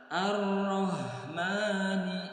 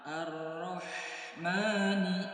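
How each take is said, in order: First: The h is light, without pressure in the throat. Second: The h is pressed hard from the throat. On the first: The speaker calls it wrong. "kalau tidak ditekan, maka akan menyerupai huruf H besar" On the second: The speaker calls it right. "Kalau ditekan"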